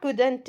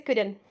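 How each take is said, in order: First: "couldn't" with an extra "tu" at the end; couldn't with released T. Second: "couldn't" as "kud-en", T dropped; couldn't without T. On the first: Teacher showing the version to avoid, "couldn't" ending in "tu". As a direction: sound the T of "couldn't" as its own syllable. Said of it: "Not couldn't". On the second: Teacher correcting learners, "couldn't" with silent T. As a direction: close "couldn't" on the N. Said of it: "It is couldn't". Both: Shown as a demonstration.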